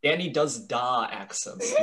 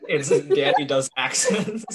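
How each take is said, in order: First: Put-on slowly, with "da" as a broad "dah" before "accents"; branded "da" title. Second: Slow, laughing title announcement; laughing segment title. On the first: Host branding the podcast segment, "da" said as "dah". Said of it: "You can even brand it". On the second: Pretend. Host pitching a mock podcast segment, laughing.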